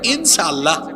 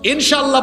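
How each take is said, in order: First: The middle consonant is a plain 's' sound. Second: The middle consonant is a clear 'sh' sound.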